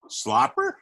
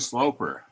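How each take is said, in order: First: The first vowel is short, as in 'slop'. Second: The first vowel is long, as in 'slope'. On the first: The speaker calls it wrong. "like there's two P's" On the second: The speaker calls it right. "you pronounced it correctly"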